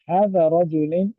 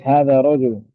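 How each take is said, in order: First: The last word ends with an 'in' sound. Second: The last word ends with an 'un' sound. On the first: The speaker calls it wrong. "hada rajulin is not correct" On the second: The speaker calls it right. "It's hada rajulun"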